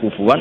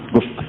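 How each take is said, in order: First: The middle consonant is a w sound. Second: The middle consonant is a glottal stop. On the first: This is one recognized reading of the word. "dibaca wawu" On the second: This is another recognized reading of the word.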